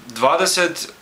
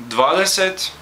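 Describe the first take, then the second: The two takes are said the same way.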